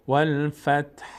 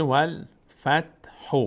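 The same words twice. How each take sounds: First: "والفتح" ending vowelless on a faint h; stopping form. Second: "والفتح" slowly, voiced vowel after the final h; continuing form. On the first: Teacher showing the pause, final h only breathed. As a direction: stop on "والفتح" with just a whiff of h. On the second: Teacher showing the word if recitation continues, final vowel sounded. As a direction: link onward, ending "والفتح" on a clear -hu. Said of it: "اگر ادامه بدیم". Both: Shown as a demonstration.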